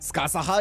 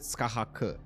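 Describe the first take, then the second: First: The name ends with an added ha syllable. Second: The name ends with a hard k sound. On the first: "Skasaha is the Japanese pronunciation" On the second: "K? Is it a K?"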